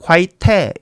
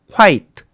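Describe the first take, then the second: First: Quite said as kwai-te with the final e sounded; wrong pronunciation. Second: Quite said as kwait with a silent final e; correct pronunciation. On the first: Teacher demonstrates the wrong way to say quite, final e voiced. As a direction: quite with an extra vowel after the t. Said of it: "저게 만일에 소리가 난다면 quite가 아니라". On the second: Teacher shows the right way to say Quite, final e silent. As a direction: Quite ending crisply on the t, no vowel after. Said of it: "여기에서 마지막에 있는 이, 쟤는 묵음입니다". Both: Shown as a demonstration.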